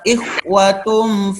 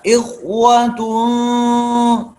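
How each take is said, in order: First: The nasal hum is rushed and cut short. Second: The nasal hum is held fully and long. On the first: The speaker calls it wrong. "Jangan ikhwatum fa'as, itu tidak sempurna" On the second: The speaker calls it right. "Ini ikhwanya sempurnakan"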